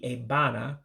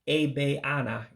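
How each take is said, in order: First: The middle vowel is dropped from the word. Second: An extra vowel is pronounced in the middle. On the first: The speaker calls it right. "It would be Ebana" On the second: The speaker calls it wrong. "you don't pronounce it Ebeana"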